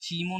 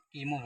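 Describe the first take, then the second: First: The word begins with a 'ch' sound. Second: The word begins with a 'k' sound. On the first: The speaker calls it wrong. "चीमो नहीं पढ़ेंगे" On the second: The speaker calls it right. "इसका उच्चारण का से करेंगे"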